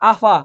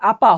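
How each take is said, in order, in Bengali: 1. মাঝের ব্যঞ্জনটি f ধ্বনি। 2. মাঝের ব্যঞ্জনটি p ধ্বনি। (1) "হয়ে গেছে কি আফা" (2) "ছিল কি আপা"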